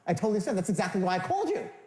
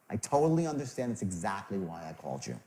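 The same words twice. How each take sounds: First: It sounds eager, like wanting money. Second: It sounds warm and caring.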